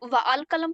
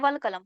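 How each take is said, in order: First: The article's vowel is sounded separately. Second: The article's vowel is silent and merged. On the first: The speaker calls it wrong. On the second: The speaker calls it right.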